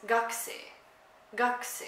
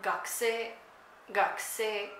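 First: "gakse" starting high on the first syllable; first-syllable pitch accent. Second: "gakse" starting low and going up; low-to-high pitch accent. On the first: Explaining Japanese for right side, "gakse" accented up front. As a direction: put the emphasis on the start of "gakse". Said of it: "And for the right side". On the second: Explaining Japanese word for student, "gakse" low then rising. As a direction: say "gakse" with the second syllable pitched higher. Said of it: "you start low and you go up". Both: Shown as a demonstration.

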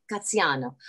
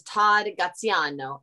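First: Graziano with a light Italian accent. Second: Said in the usual way. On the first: Shown as a demonstration. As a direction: roll Graziano out the Italian way, just a touch. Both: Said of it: "I love saying it with an Italian accent".

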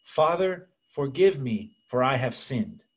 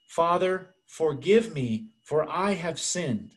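First: Lightly acted Spanish accent; thick Spanish accent. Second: Slow, deliberate imitation of a Spanish accent; Spanish accent, repeated. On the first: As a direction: imitate a penitent with a Spanish accent. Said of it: "with a very thick Spanish accent". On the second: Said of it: "So she said again".

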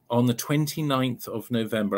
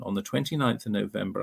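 First: Measured, spelled-out date; unhurried, clearly spaced announcement; slow and deliberate. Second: Said in the usual way. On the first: Real, not acted. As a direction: give the date carefully for note-takers. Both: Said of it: "I'll say it slowly".

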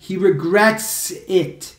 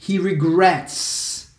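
First: "He regrets it" slow, with "it" added clearly; corrected example. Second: "He regrets" drawn out slowly; incomplete example. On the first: Teacher shows what to say, slowly adding "it". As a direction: draw out "regrets", then land "it". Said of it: "Você tem que falar". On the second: Teacher shows what not to say, slowly. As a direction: stretch "regrets" as the example to avoid. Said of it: "você não pode falar". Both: Shown as a demonstration.

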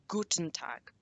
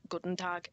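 First: "guten Tag" with a crisp t in "guten"; correct German. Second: "guten Tag" with the t of "guten" softened to d; mispronounced German. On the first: Teacher corrects the greeting for learners, "guten Tag" with clear t. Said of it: "it is guten Tag". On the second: Teacher shows learners what to avoid, "guten Tag" with a soft d. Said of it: "it is most definitely not guten Tag". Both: Shown as a demonstration.

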